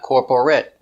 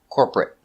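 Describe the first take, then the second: First: The word is said with three syllables. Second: The word is said with two syllables. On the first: The speaker calls it wrong. "not three. Not corporate" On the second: The speaker calls it right. "Two syllables"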